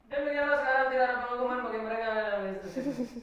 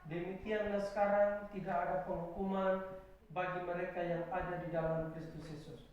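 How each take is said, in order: First: The verse is read quickly and hurriedly. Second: The verse is read slowly and deliberately. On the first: The speaker calls it wrong. "Jangan bilang, ... Jangan baca begitu ya" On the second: The speaker calls it right. "tolong bilang begini, pelan-pelan ya"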